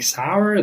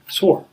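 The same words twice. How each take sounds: First: It rhymes with power, two vowel sounds. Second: It rhymes with more, like the word sore. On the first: The speaker calls it right. "Instead of saying sour" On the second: The speaker calls it wrong. "they say sour, which is the second word"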